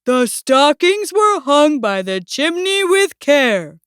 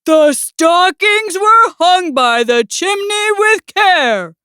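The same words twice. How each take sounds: First: Slow, measured recitation; poem recital. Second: Slow, higher, emphatic recitation; loud recital. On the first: Bear continues his poem for Mouse, measured recital. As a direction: recite it deliberately at normal volume. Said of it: "Bear continued". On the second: Bear hints at the stockings to Mouse, loud recital. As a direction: recite it pointedly, raising the voice. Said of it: "repeated more loudly". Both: A narrator's reading.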